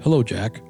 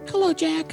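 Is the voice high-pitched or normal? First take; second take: normal; high-pitched. First: It is said in a normal voice. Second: It is said in a high-pitched voice.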